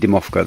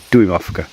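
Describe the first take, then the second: First: The first syllable is a single 'dee' sound. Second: The first syllable is a two-part 'doo-ee' sound. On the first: The speaker calls it wrong. "I've been saying that wrong. I've been saying Dimovka" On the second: The speaker calls it right. "They're Duimovka"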